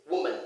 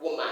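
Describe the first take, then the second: First: WOMAN with a schwa ending; woman with an unstressed final syllable; correct pronunciation. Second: WOMAN with a full A in -man; woman ending like the word man; wrong pronunciation. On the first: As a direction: say woman as WOO-mun, last vowel weak. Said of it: "It has the schwa". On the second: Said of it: "so it's not woman". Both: Shown as a demonstration.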